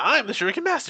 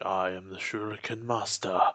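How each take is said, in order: First: It is said in a loud, boastful tone. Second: It is said in a calm, honorable tone.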